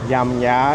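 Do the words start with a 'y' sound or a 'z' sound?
y. Both words start with a y-like sound, southern style. The speaker calls it wrong. "It's not Yam Ya"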